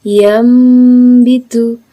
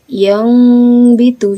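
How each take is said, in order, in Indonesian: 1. Bunyi sengau sebelum b adalah bunyi m. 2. Bunyi sengau sebelum b adalah bunyi ng. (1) "merapatkan bibirnya atau merenggangkan sedikit" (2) "yang bitu juga bukan"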